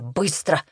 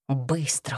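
First: Said in the usual way. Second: Softer, low urgent hiss. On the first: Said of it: "Собираемся". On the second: A narrator's reading. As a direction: hiss the order, stifled and tense. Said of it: "задушливо зашипел он".

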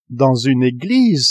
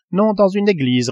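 First: Slow, drawn-out astonished question; Ned cries out in disbelief at the church; incredulous cry. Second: Said in the usual way. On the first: A narrator's reading. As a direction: echo it in disbelief. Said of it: "s'écria le Canadien". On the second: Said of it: "répondit Conseil".

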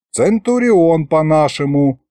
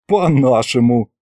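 First: Slow, explanatory gloss. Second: Lightly amused echo; mild snicker. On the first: Grandpa translates the officer's rank, explanatory. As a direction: translate it patiently, drawing it out. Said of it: "пояснил дед". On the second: Fedya mocks grandpa's translation, mild snicker. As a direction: echo it with a touch of a giggle. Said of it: "хихикнул я". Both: A narrator's reading.

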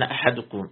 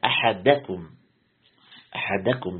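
First: أحدكم said as "ahadukum", with u after the dal; slip on the dal. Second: أحدكم said as "ahadakum", with a after the dal; fatha on the dal. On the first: Real, not acted. Teacher misreads while quoting a hadith, أحدكم as "ahadukum". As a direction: put a damma on the dal of أحدكم. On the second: Shown as a demonstration. Teacher corrects his own reading, أحدكم as careful "ahadakum". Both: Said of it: "بفتح الدال".

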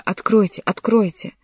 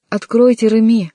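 First: Slightly raised, restrained shout; calling out. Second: High, loud desperate call; louder shout. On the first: Young man pounding on the door, restrained shout. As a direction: call at a closed door, not at full force. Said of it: "крича". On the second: Frantic young man at the locked door, loud shout. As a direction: shout through the door, losing composure. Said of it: "ещё громче закричал молодой человек". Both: A narrator's reading.

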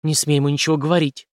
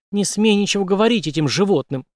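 First: Mildly tense, restrained order; hissed warning. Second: High, angry outburst; shouted warning. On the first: Woman stopping the major from talking, mild hissed warning. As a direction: warn him off without raising the voice much. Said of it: "неожиданно прошипела женщина". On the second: Mistress forbidding talk with these animals, angry shout. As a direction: cry out to forbid him. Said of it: "неожиданно закричала его любовница". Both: A narrator's reading.

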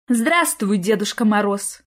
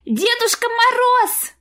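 First: Mild, friendly woman's greeting. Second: Put-on much higher, slow rapturous child's cry of «Дедушка Мороз!»; ecstatic little boy. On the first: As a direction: welcome Grandfather Frost kindly. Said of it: "приветливо отозвалась бухгалтерша". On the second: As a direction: squeal it like a thrilled boy. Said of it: "захлёбывающийся от восторга мальчишеский голос". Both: A narrator's reading.

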